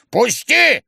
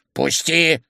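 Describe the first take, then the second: First: Loud, high demand; old man's impatient shout. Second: Mildly insistent demand; firm but not shouted. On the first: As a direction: yell to be let through. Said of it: "кричал старик". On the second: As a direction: press to be let through. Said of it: "настаивал старик". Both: A narrator's reading.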